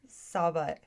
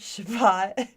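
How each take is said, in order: First: The word begins with an s sound. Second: The word begins with a sh sound. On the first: "Two, Sabbat" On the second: "One, Shabbat"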